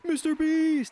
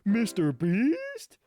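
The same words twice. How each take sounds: First: It sounds like an emphatic exclamation. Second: It sounds both excited and questioning.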